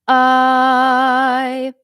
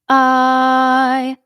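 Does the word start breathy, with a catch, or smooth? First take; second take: catch; catch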